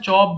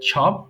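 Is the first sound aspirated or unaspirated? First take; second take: unaspirated; aspirated. First: The first sound has no puff of air. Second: The first sound has a puff of air. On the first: The speaker calls it wrong. "আমরা সবসময় চপ বলে আসছি" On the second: The speaker calls it right. "এটাকে আমরা ছপ বলবো, তাহলে সঠিক উচ্চারণ হবে"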